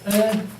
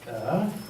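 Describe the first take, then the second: First: The pitch stays high and level. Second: The pitch dips low and then rises. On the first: "a high level" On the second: "the kind of circumflex"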